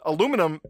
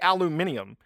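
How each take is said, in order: First: The word is said the American way. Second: The word is said the British way. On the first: "some of the American pronunciations of the words like niche, aluminum" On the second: "they say aluminium"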